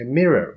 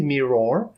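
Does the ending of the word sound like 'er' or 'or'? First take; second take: er; or. First: The last syllable has a plain er sound. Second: The last syllable has a full or sound. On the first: The speaker calls it right. "we pronounce them er" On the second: The speaker calls it wrong. "We don't say mirror"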